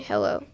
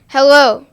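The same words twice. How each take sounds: First: It is said in a low, sad tone. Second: It is said in a bright, cheerful tone. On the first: The speaker feels down. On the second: The speaker is glad to greet someone.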